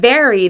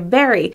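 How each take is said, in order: First: It starts with teeth on the lip, a V. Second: It starts with a B sound instead. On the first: The speaker calls it right. "instead of saying very" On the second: The speaker calls it wrong. "they say very, without putting the V"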